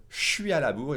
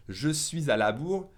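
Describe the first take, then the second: First: "je suis" squeezed to shwee, no z before "à"; native pace. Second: "Je suis" in full, z linking it to "à la bourre"; careful full form. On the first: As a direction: contract "je suis à la bourre" as natives do. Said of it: "at a normal pace for me as a native speaker". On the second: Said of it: "if I say it at a normal pace". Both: Shown as a demonstration.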